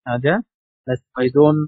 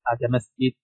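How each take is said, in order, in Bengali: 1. শেষ শব্দটি যোগ করা -un দিয়ে শেষ হয়। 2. শেষ শব্দটি শুধু একটি ব্যঞ্জনে শেষ হয়।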